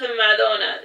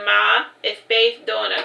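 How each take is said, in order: First: Madonna said slowly as one smooth word; pronounced name. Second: Ma, a clear break, then Donna; Ma and Donna kept apart; spelled out in parts. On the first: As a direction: say Madonna slowly, both halves joined. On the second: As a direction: split Ma and Donna with a pause. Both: Shown as a demonstration. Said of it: "Pronounced Madonna".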